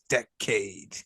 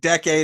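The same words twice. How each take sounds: First: The word is split with a break between syllables. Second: The word is said smoothly as one unit.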